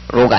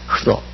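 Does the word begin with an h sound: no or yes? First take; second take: no; yes. First: The word begins directly with an r sound. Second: The word begins with a breathy h before r. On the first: The speaker calls it wrong. "로가 아니라" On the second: The speaker calls it right.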